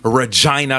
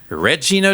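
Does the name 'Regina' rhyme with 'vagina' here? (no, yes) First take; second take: yes; no. First: The name rhymes with vagina. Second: The name does not rhyme with vagina. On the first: It is the name of a city. "on dit Regina Saskatchewan" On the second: It is the name of a film character. "On dit Regina George"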